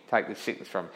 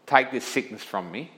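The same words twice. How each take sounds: First: Softer, lower plea, fading; a hushed second plea; softer pleading repeat. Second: Said in the usual way. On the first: Retold or imitated. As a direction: beg it again, quietly. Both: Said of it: "Paul had pleaded three times".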